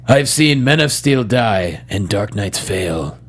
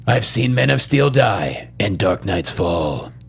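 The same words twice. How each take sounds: First: Slow, low line read; dramatic line reading. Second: Slow, low retake ending "fall"; dramatic line reading. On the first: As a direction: misspoken "fail" at the end. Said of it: "say my favorite line". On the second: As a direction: read it slowly, landing on "fall". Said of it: "Let me do it again". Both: Shown as a demonstration.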